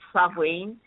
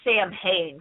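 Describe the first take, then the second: First: The word is pronounced unlike its spelling. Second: The word is pronounced the way it is spelled. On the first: The speaker calls it right. "but it's Samhain" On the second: The speaker calls it wrong. "it's spelled Samhain, so people still say it like that"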